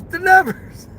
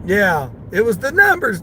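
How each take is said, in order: First: High teasing chant; high singsong chant; sing-song chant. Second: Said in the usual way. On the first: Acted. Sing-song chant after plain line.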